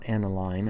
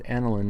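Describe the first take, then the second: First: The last syllable has a long 'een' sound. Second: The last syllable has a short 'in' sound. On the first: The speaker calls it wrong. "not aniline" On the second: The speaker calls it right. "this is pronounced aniline"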